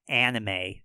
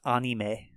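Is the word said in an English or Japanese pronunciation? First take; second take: English; Japanese. First: It is said with English-style sounds and stress. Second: It is said with Japanese-style sounds and rhythm. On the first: The speaker calls it wrong. "This we would pronounce anime" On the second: The speaker calls it right. "But it's anime"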